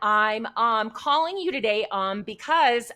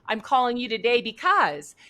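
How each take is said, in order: First: It is halting and hesitant, full of fillers. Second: It is smooth, direct and confident. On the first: The speaker calls it wrong. "It's terrible" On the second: The speaker calls it right. "delivered with confidence"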